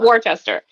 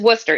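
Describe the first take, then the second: First: It is said the way an outsider would. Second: It is said the local way. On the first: The speaker calls it wrong. "it is not Worcester" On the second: The speaker calls it right. "It is Worcester, even though that is a bit confusing"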